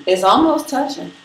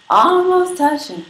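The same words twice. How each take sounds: First: Said in the usual way. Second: High, slow, drawn-out ALMOST; stretched-out ALMOST. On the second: Real, not acted. Streamer showing viewers her long hair, ALMOST drawn out high. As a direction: hold ALMOST long and high, then drop onto touching.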